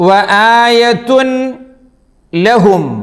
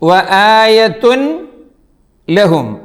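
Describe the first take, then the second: The two takes are said the same way.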